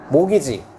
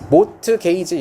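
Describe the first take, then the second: First: The t sound is silent. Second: The t sound is pronounced.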